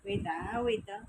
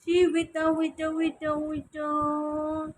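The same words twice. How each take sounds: First: Said in the usual way. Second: Louder and higher, urging the pet to stay still; louder wait. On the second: Real, not acted. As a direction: push the waits out louder. Pet squirming, owner insists. (mas malakas na pakiusap sa alaga)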